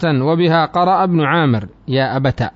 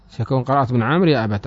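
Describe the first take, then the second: First: Slow, careful reading of يا أبت with the final ت open; reading the grammar text aloud, slow and deliberate. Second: Said in the usual way. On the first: Shown as a demonstration. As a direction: read the line out slowly.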